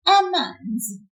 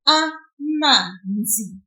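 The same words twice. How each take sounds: First: Said in the usual way. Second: Amanzi very slowly with the ma drawn out; slow model word. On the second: Shown as a demonstration. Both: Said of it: "Now you try".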